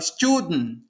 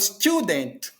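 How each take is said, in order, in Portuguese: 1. O T final é interrompido na garganta. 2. O T final é totalmente liberado. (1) "ele dá uma paradinha lá na garganta ... que é o T pausado" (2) "ele não fala student"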